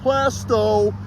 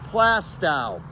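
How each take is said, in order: First: The name sounds like 'plaster toe'. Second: The name does not sound like 'plaster toe'. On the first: The speaker calls it wrong. "the correct way to say this is not Plasto" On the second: The speaker calls it right. "That's the correct way to say it here in New Hampshire"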